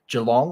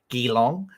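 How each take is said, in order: First: It is said with a local Australian pronunciation. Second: It is said with an American pronunciation.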